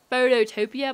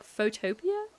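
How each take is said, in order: First: "Phototopia" with a doubled TOE, foh-toe-TOE-pia; mistaken pronunciation. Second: "Photopia" with a single TOE, foh-TOE-pia, rising; corrected pronunciation. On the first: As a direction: say "Phototopia" in five beats, foh-toe-TOE-pee-uh. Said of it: "I thought it was, like". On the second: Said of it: "but it's, like, Photopia?". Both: Shown as a demonstration.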